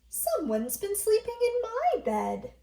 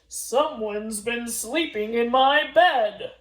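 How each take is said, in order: First: It is said in a medium-sized voice. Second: It is said in a deep, big voice.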